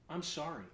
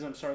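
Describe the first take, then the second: First: It sounds like a sincere, heartfelt apology. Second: It sounds like a grudging, dismissive apology.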